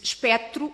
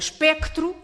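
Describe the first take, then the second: First: No c sound is heard before the t. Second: A c sound is heard before the t. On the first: The speaker calls it wrong. "também nunca disse espectro" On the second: The speaker calls it right. "Ou espectro e espectral"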